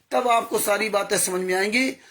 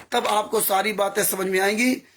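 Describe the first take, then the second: The two takes are said the same way.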